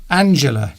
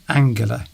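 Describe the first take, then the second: First: The name is said the English way. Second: The name is said the German way. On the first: The speaker calls it right. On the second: The speaker calls it wrong.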